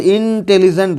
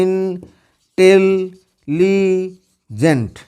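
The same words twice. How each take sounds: First: Said in the usual way. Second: intelligent in four long, level beats; syllable by syllable. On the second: Shown as a demonstration. Teacher breaking a word for students, intelligent split into syllables. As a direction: slowly hold "इन... टेल... ली... gent" with gaps. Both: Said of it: "एक बार में जितना बोल पाएगा".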